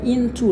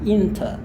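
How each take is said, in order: First: The final vowel is a full 'oo' sound. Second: The final vowel is a soft reduced 'uh' sound. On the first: "bukan into lagi" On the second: "tapi into ... berubah menjadi bunyi a yang halus"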